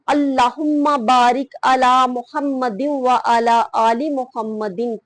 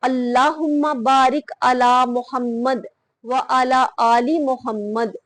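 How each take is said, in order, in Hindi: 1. यह बिना रुके एक सांस में बहता हुआ पढ़ा जाता है। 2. यह Muhammad के बाद सांस लेने के लिए रुकता है। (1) "एक ही सांस के साथ" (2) "सांस लेकर रुक कर"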